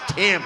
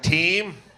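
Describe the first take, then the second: First: The name has a short 'i' vowel. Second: The name has a long 'ee' vowel. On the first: The speaker finally understands the real name. The speaker calls it right. "oh, your name is Tim" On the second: The speaker misheard the name as a common word. The speaker calls it wrong. "like like a basketball team"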